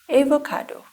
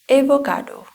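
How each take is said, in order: Both takes have the same delivery.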